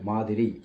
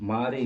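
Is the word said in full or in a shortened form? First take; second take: full; shortened. First: The word is said in full with all syllables. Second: The word is shortened, with the middle syllable dropped. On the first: The speaker calls it right. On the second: The speaker calls it wrong. "மாறி இல்லை"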